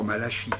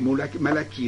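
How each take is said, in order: First: The name is said the French way, with 'sh'. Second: The name is said the Hebrew way, with a 'k'. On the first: This does not follow the original Hebrew form. The speaker calls it wrong. "et non pas Malachi" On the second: This follows the original Hebrew form of the name. The speaker calls it right. "il faut prononcer Malachi ... Parce qu'il faut suivre là ce que dit l'hébreu"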